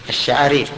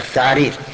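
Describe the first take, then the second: First: The word starts with a 'sh' sound. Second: The word starts with a 'th' sound. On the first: This is the word the speaker meant to say. The speaker calls it right. "يقول الشعارير" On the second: A speaker with missing teeth mispronounced it. The speaker calls it wrong. "كأنه نطق بها هكذا الثعارير"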